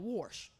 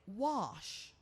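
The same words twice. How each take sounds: First: The word is said in a casual dialect way. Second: The word is said in a careful standard way. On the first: This is talking good rather than speaking well. The speaker calls it wrong. "instead of wash" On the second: This is speaking well. The speaker calls it right. "We want you to be able to say wash"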